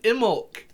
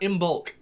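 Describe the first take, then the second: First: The B sound is silent. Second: The B sound is pronounced. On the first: The speaker calls it right. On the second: The speaker calls it wrong.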